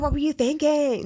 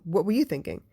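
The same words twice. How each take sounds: First: It sounds exasperated and accusing. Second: It sounds calm and genuinely curious. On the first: The listener made a foolish mistake. The speaker calls it wrong. "it's not like, oh my God" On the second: The speaker wants to understand the listener's reasoning. The speaker calls it right. "It's like, okay, well"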